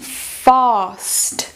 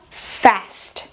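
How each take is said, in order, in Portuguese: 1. Sotaque britânico, com o A aberto e longo. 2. Sotaque americano, com o A curto, como em cat. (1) "Em britânico, também a gente encontra esse som comprido" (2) "em americano, fica"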